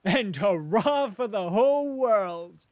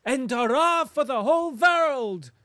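First: Laughing cry. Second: Loud, high, joyful cry of hurrah; cried out. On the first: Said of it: "cried laughing". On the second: German farmer cries his hurrah to Rustov, loud and joyful. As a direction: throw the cheer out to the whole world. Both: A narrator's reading.

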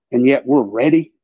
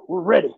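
First: Said in the usual way. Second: "We're ready" tossed off a little higher in mock pride; sarcastic swagger on "We're ready"; mock bravado. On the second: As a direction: parody the boastful patriot saying "We're ready". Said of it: "We're America".

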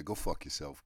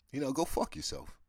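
First: Lower, plainer repeat of go fuck yourself; flat blunt repeat. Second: Blunt dismissal. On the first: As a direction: say go fuck yourself again flatly. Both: Real, not acted. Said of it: "if I'm just being honest here".

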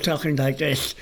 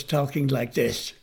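First: "talking like this" slurred as with a damaged tongue; speech defect demo. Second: Said in the usual way. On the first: Shown as a demonstration. Showing the student's old speech, slurred "talking like this". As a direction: blur the consonants in "talking like this". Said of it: "instead of talking like this". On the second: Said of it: "he was talking like this".

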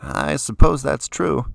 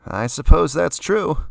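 First: Talking through a mouthful of food; chewing while saying it; mouth full. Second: Offhand, higher and louder, slowly; shrugging. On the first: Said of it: "around a large mouthful of food". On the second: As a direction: careless shrug in the voice. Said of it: "said again with a shrug". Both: A narrator's reading.

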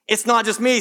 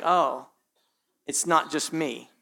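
First: Brighter, emphatic repeat; relieved realization. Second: Low, soft inner murmur, relieved; quiet relief. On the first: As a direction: say it again with growing relief. Repeated aloud, stronger. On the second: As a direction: mumble it to yourself, relieved you're not alone. Quiet inner relief, pastor mimics. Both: Retold or imitated.

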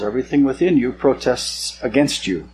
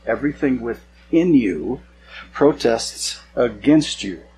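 First: Said in the usual way. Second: Drawn out at half speed, with pauses; slow emphatic repeat. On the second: Acted. Preacher reading God's rebuke to the congregation, slow and emphatic. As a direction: repeat it slowly, weighing each word.

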